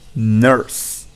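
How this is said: The vowel is followed by a clear R sound. "they would say nurse with that R sound"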